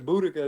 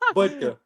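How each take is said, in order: First: An extra vowel is sounded in the middle. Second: No extra vowel is sounded in the middle. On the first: The speaker calls it wrong. "I think I called the other boy Boudica. There's no uh, there's no A in there" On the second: The speaker calls it right. "It's Budka"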